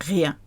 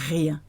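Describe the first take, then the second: No difference in how they are said.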